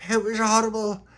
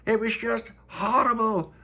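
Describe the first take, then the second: First: High, upset: it was horrible; high dismayed kid voice; upset child's voice. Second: High, slow, dwelling on "horrible"; slow, high, aghast; slow dismayed repeat. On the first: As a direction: tell it like a frightened kid. Tony retells the horror. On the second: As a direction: drag out "just horrible" in dismay. Tony repeats, slower. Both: Acted.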